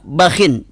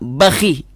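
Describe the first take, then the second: First: It ends on kh plus -in. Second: It ends on kh plus a short i. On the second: "dikasrahkan dengan ha harokat kasrah"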